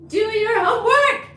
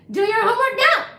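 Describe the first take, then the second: First: High loud pretend-parent order; mock scolding. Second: Mock scolding. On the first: Streamer jokingly ordering a viewer to study, mock scolding.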